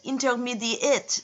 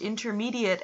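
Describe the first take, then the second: First: The word is said with a mock French pronunciation. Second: The word is said with ordinary English pronunciation.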